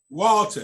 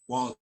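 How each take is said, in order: First: The name is said loudly and boldly. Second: The name is said at a quieter level.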